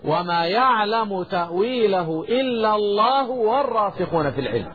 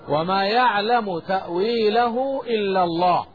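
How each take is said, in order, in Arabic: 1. تُوصَل الجملة بدون وقف بعد لفظ الجلالة. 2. تقف الجملة بعد لفظ الجلالة. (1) "فلا نقف على لفظ الجلالة" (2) "قراءة الوقف على لفظ الجلالة"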